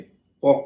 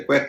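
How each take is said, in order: First: The vowel sounds like 'aw'. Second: The vowel sounds like 'a' in cat. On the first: The speaker calls it wrong. "कॉक नहीं कहेंगे" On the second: The speaker calls it right. "इसे quack कहेंगे"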